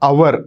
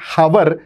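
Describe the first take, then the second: First: The word begins directly with a vowel sound. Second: The word begins with an audible H sound. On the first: The speaker calls it right. "Rather it's అవర్, హెచ్ silent" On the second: The speaker calls it wrong. "It's not హవర్"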